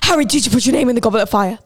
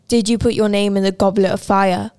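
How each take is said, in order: First: The question is asked in an agitated voice. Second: The question is asked in a calm voice.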